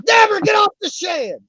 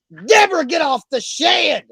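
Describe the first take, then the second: First: The same hammed-up yell, pitched even higher; higher mock shout. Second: A hammed-up yell, pitched higher and slowed; mock shout. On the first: Host repeating his holler about the birds, higher mock shout. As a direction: holler it again, higher still. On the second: Host hollering about his birds on the show, mock shout. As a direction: bellow it out like calling across the yard, drawn out.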